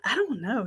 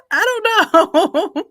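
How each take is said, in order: First: Said in the usual way. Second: Laughing it out, a bit higher and louder. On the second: Real, not acted. Host laughing at her own doubt about the photo, laughing. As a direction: giggle through the words, unsure.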